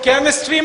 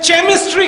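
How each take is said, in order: First: The word begins with a 'k' sound. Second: The word begins with a 'ch' sound. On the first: "कहां C H का हो" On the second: "जहां दिल में आया चा"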